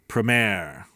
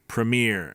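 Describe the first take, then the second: First: The word is said in a British accent. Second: The word is said in an American accent. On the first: "Brits say premiere" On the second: "love the way Americans say premiere"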